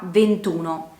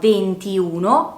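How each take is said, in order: First: The i before uno is dropped. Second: The i before uno is pronounced. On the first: The speaker calls it right. "si perde la i e diventa ventuno" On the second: The speaker calls it wrong. "non si pronuncia ventiuno"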